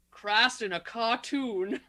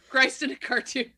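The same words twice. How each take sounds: First: Slow, drawn-out imitation of the quip; mock movie quote. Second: Laughing through the quote. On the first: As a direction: deliver it slowly, like a corny action hero. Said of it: "How about this one?". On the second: Retold or imitated. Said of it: "He says that".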